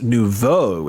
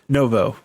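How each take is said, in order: First: It is said the French way, noo-voh. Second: It is said as no-vo, between both. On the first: It is the proper name. "that's actually pronounced nouveau. It's French" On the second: It splits the difference. "Brody just pronounces it novo. It's right in the middle"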